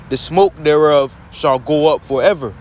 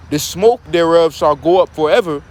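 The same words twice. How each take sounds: First: "The smoke thereof shall go up forever" read in deliberate, separated phrases; emphatic. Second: Said in the usual way. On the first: Shown as a demonstration. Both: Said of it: "Now I wanna put emphasis on".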